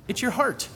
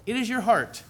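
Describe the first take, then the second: First: Said in the usual way. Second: It is your heart with is uncontracted and leaned on; stress on is. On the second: Shown as a demonstration. Preacher restates the point to the congregation, stressing is. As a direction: lean on the word is.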